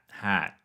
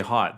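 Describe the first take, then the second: First: The vowel is open and unrounded. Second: The vowel is short and rounded. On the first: This is how Americans say it. "they say hat" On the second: This is the speaker's own non-American accent. "I say hot"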